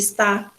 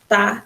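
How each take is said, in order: First: The word is said in full with two syllables. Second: The word is shortened, dropping the first syllable. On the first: "em vez de está" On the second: "tá, em vez de está"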